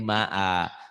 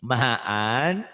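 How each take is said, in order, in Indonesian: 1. Kata ini berakhir dengan vokal biasa. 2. Kata ini berakhir dengan bunyi n.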